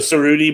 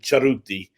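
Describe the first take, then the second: First: No ch sound, and the R is not rolled. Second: It starts with ch, and the R is rolled. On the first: "Cerruti is the American pronunciation" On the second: "in Italy they pronounce it Charuti, uh, a C H sound, and they roll the R"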